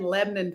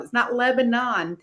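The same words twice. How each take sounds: First: Lebanon said Lev-nun, v sound; local pronunciation. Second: Lebanon said Leb-a-non, full b; standard pronunciation. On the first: Guest showing how Tennessee locals say Lebanon. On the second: Guest contrasting the standard Lebanon. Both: Shown as a demonstration.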